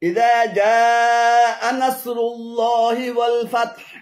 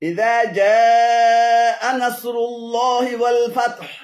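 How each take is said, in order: No difference in how they are said.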